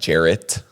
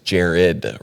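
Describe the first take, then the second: First: The name ends with a T sound. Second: The name ends with a D sound. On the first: The speaker calls it wrong. "like with a T" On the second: The speaker calls it right. "with a D"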